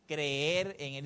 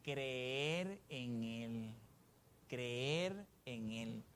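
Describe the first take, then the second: First: Said in the usual way. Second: Softer, lower and very slow; hushed, slow. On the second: Shown as a demonstration. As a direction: draw each word out almost under your breath. Preacher repeats phrase for congregation.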